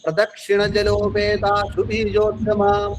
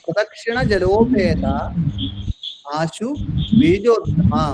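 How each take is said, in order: First: The words are joined together in one flow. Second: Each word is separated from the next. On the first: "ഞാൻ ഒന്നുകൂടി വായിക്കാം" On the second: "പദം മുറിച്ച് പറയാം"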